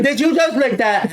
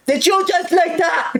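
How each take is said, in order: First: A lighter high mock of the teacher's question; mock teacher quote. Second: High, slow sneering mock of the teacher. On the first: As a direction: toss the accusation back in a smaller sneering voice. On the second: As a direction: drag it out in a snotty high voice like a bratty teacher. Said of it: "Like a fucking brat".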